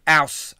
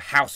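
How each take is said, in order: First: It is said Cockney-style, dropping the h. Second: It is said in standard English, with the h.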